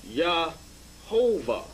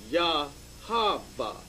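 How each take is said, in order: First: Yahovah drawn out slowly with an O sound; the wrong form. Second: Yahava drawn out slowly, every syllable an Ah; the correct form. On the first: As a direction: stretch Yahovah out, the version to correct. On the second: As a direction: say Yahava slowly as the right version. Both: Shown as a demonstration. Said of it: "or more correctly".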